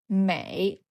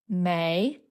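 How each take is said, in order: First: The pitch dips low, then rises. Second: The pitch rises steadily from mid to high. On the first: "Mei is third tone" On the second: "our character for plum blossom is second tone"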